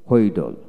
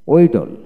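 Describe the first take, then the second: First: হোয়েডল with an audible h first; হোয়েডল starting on breathed hw; American h pronunciation. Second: ওয়েডল starting on w, no h; ওয়েডল with a plain w onset; British w pronunciation. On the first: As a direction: sound the h in হোয়েডল. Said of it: "আমেরিকানে হ". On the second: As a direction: drop the h in ওয়েডল. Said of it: "British উচ্চারণে". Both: Shown as a demonstration.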